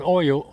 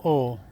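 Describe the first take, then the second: First: "oil" with an oy glide. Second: "oil" with no glide, "awl". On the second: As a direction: say "oil" in one syllable, "awl". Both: Shown as a demonstration. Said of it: "I call it oil".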